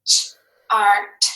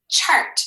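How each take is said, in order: First: "chart" split into loud separate sounds, ch, ar, t; loud segmented phonics demo of "chart"; sounded out. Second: Said in the usual way. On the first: Shown as a demonstration. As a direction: tap out each sound of "chart" firmly, with gaps. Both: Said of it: "Let's tap and read it now".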